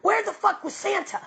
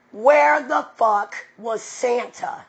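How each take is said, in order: First: Mocking question. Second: WHERE stressed, said slow and louder; slow, deliberate repeat. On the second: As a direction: drag it out to make the point land. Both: Real, not acted. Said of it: "I like to ask questions".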